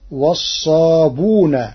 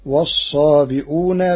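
First: Slow "والصابون" with long u straight after b, no hamza; Warsh reading. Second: Said in the usual way. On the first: Shown as a demonstration. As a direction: drop the glottal stop in "والصابون": as-saabuuna. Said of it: "وحذف الهمز". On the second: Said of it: "بضم الباء".

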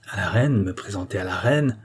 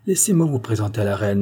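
First: Grumbled, incredulous question; gruff echo of the offer; grumbling growl. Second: Said in the usual way. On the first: A narrator's reading. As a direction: growl it back like a reluctant brewer. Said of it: "grogna le brasseur". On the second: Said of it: "dit celui-ci".

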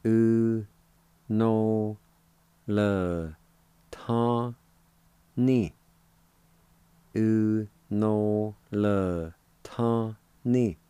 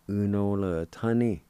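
First: Separated syllables with clear pauses. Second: Said in the usual way. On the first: Shown as a demonstration. Teacher showing learners the word January, syllable by syllable. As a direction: sound out each syllable on its own, held out. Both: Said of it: "It's pronounced like this".

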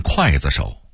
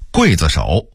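First: 刽子手 as kuàizishǒu; Beijing-style 刽子手 opening like 筷子; Beijing dialect reading. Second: Said in the usual way. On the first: Shown as a demonstration. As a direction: say 刽 in 刽子手 as kuài, not guì. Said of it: "北京话念". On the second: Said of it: "北京话念刽子手".

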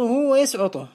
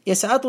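First: ويسعطه said wa-yasʕuṭuh; damma form. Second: يسعطه said yasʕaṭuhu; fatha form. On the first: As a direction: put a u after the ʕayn in ويسعطه. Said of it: "بالضم". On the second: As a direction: put an a after the ʕayn in يسعطه. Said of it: "بالفتح المقيس". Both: Shown as a demonstration.

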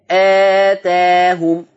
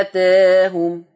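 First: آتاهم drawn very slowly, final a open and clear; short madd with opening. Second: آتاهم slow, the a tilted toward e; slow recitation of آتاهم, tilted a; medium madd with taqleel. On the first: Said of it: "لو أنت قصرت آه". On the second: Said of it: "هتقلل تاهم اللي هي الألف". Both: Shown as a demonstration.

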